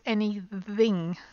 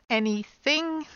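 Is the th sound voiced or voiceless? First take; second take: voiced; voiceless. First: The th is voiced, with the throat vibrating. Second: The th is voiceless, with only air. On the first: The speaker calls it wrong. "not anything" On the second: The speaker calls it right. "It's anything"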